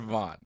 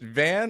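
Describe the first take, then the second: First: The vowel is an open 'aw' like 'Vaughn'. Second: The vowel is a flat 'a' like 'van'. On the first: "Vaughn like Lindsey Vaughn" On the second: "Is it the like driving a van"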